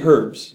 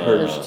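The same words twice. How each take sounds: First: The word begins with an audible h sound. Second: The word begins with no h sound. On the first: This is the usual way at home. The speaker calls it right. "you say herbs" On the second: Other people say it this way. The speaker calls it wrong. "but we think it sounds strange. they say herbs"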